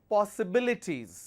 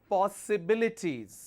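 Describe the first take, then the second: The two takes are said the same way.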